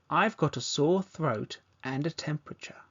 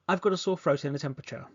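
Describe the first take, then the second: First: The sentence is spoken at a normal pace. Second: The sentence is spoken very fast. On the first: "Now let's say at a natural pace" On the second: "Now let's do this really fast"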